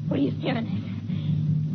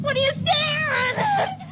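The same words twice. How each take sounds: First: Slow breathless whisper; eerie whisper. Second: Very high, slow screaming question; wild shriek. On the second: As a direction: scream it as the change takes her. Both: Acted. Wife, changing, faces her husband.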